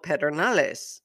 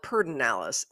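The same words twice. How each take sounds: First: The name is pronounced as written, Spanish style. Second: The name is pronounced in the local regional way. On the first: "it's spelled Pedernales, you know, which is kind of a Spanish word" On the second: "up here or around here, they call it Pedernales"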